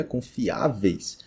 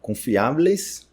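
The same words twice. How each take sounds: First: "confiáveis" as slow con-fi-Á-veis; falling "confiáveis", peak on Á; Portuguese pronunciation. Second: "confiáveis" as slow con-fi-A-bles; Spanish bles ending on "confiáveis", rising; Spanish pronunciation. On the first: Teacher gives the Portuguese plural, Portuguese pronunciation. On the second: Teacher reads the Spanish plural, Spanish pronunciation. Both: Shown as a demonstration. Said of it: "que seria confiáveis".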